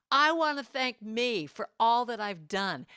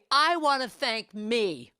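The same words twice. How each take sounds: First: Said in the usual way. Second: Slow, louder and higher, with the stress on "me"; Niecy Nash's proud self-thanks. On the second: Retold or imitated. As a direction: savour "I want to thank me" like an award winner. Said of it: "She said".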